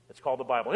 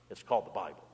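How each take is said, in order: First: Said in the usual way. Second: Lower, much softer reveal of the word; hushed reveal. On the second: Shown as a demonstration. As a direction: drop the voice low on it. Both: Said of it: "repeated line".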